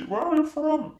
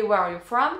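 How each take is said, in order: First: Higher-pitched mock local old-timer; imitated old local man. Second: Textbook English question, close to own voice; teacher's English. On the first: Old local man questioning newcomer, mock old-man voice. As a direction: put on a neighbourhood old man's English. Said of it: "un petit vieux du quartier qui m'a dit". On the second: Retold or imitated. English teacher asking her pupil, imitated classroom English. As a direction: ask it as an understandable classroom phrase. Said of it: "Moi, ma prof, quand elle me demandait".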